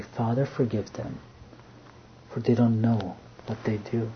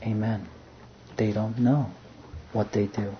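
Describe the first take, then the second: First: Soft, much quieter plea of mercy; tender prayer. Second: Soft, much quieter, settled amen; quiet agreement. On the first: Jesus asking his Father to forgive, softly and tenderly. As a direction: pray it gently, forgiving them. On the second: The Father answering his Son, soft and calm. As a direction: echo the prayer gently, in calm assent. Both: Acted.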